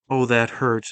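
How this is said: It is said in a light, teasing tone. The speaker is not really hurt and is joking. "a playful"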